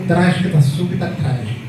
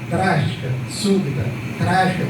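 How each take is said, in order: First: The words run together without pauses. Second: There is a pause after each word. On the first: The phrase is kept as one block, as the poet built it. The speaker calls it right. "É um bloco só" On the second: The poet's single unified construction is broken up. The speaker calls it wrong. "Se você coloca vírgula"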